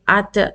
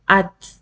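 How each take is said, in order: First: The final t is released with a bounce. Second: The final t is held without release. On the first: The speaker calls it wrong. "I cannot say at, at. It's wrong, totally wrong" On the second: The speaker calls it right. "I will not lift up my tongue"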